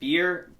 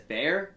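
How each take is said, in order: First: The name rhymes with 'ear'. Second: The name rhymes with 'air'. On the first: The speaker calls it right. "It's actually Beer" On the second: The speaker calls it wrong. "Everyone says Bear"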